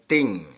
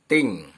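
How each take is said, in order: The two takes are said the same way.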